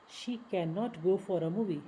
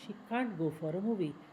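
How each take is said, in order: First: 'Cannot' is said as full separate words. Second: 'Cannot' is shortened into one syllable.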